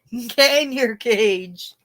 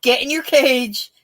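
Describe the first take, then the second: First: Very slow, stretched repeat of the order; drawn-out Debbie Manopoulos. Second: Sharp, higher, louder command from the skit; bossy Debbie Manopoulos. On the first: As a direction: draw the command out, savouring it. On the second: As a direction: bark the order at the girl, lightly mocking. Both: Retold or imitated. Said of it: "Debbie Manopoulos".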